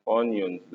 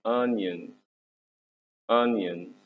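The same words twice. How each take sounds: First: "onions" with a round "oh" first vowel; wrong vowel shown. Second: "onions" opening on "uh", as "un-yunz"; corrected vowel. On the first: Teacher correcting a pupil, "onions" wrongly said with an "oh". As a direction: mispronounce "onions" as "ohn-yonz", drawn out. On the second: Teacher giving pupils the fix, "onions" starting with an "uh" sound. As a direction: say "onions" as "un-yunz", slowly and clearly. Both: Shown as a demonstration. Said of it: "مش onions، لا، onions".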